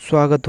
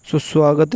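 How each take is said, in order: First: स्वागत starting straight on "sva"; स्वागत with no "su" before it; correct form. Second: सुस्वागत with an extra "su" in front; सुस्वागत with the doubled opening; wrong form. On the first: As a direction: say स्वागत as "svaa-gat". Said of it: "स्वागत होता है". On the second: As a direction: say सुस्वागत as "su-svaagat". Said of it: "सुस्वागत नहीं". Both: Shown as a demonstration.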